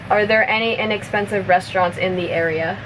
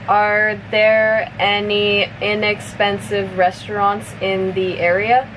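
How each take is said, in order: First: The sentence is spoken fast, at natural speed. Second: The sentence is spoken at medium speed. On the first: "one more time at normal speed" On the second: "a little bit faster"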